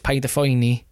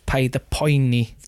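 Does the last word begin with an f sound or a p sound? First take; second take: f sound; p sound. First: The last word begins with an f sound. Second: The last word begins with a plain p sound. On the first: The grammatical mutation is applied. The speaker calls it right. "The correct way of saying it is Paid a Phoeni" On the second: The mutation is skipped to keep the alliteration. The speaker calls it wrong. "Do it the wrong way"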